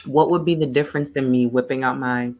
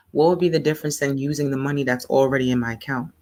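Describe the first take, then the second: First: Coughing while eating ice cream; choking on food. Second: Said in the usual way. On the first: Real, not acted. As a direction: talk through a throat catch from food. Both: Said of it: "I'm choking on my ice cream".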